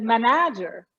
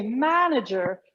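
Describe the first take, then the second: First: Ma-NA-ger, stress shifted to the second syllable of "manager"; misplaced stress. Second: MAN-ager, stress on the first syllable of "manager"; correct first-syllable stress. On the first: Coach showing the wrong word stress, ma-NA-ger. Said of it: "instead of manager". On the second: Coach showing the right word stress, MAN-ager. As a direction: hit MAN in "manager", rest unstressed. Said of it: "Put the stress in the right place". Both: Shown as a demonstration.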